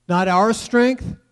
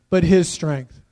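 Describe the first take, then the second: First: "our" set up slowly, "strength" left rising; stress on "our". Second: "his" hit firmly, tune falling after it; stress on "his". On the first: Preacher correcting whose strength it is, stress on "our". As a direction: contrast "our", leaving the tune hanging. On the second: Preacher giving God the credit, stress on "his". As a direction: land on "his" as the answer. Contrasts our strength with his. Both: Shown as a demonstration.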